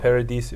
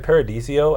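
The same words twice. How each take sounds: First: It is said without an extra vowel before the end. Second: It is said with an extra vowel before the end. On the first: The speaker calls it right. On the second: The speaker calls it wrong.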